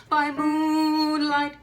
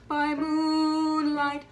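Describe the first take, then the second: Both takes have the same delivery.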